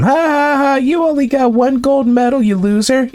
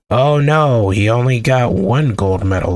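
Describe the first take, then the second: First: High-pitched mock gloating; mocking laughter. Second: Mildly mocking fake dismay; low, mock-concerned lament. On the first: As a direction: jeer like a playground bully, hammed up. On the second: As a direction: feign pity for someone you're about to ridicule. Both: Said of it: "Let's laugh at him".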